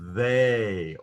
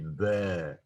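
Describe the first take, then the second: First: The vowel is a long gliding 'ay' sound. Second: The vowel is shorter and more 'e'-like. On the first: "it would emphasize that uh, kind of the long A sound" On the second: "it's going to be more E sounding"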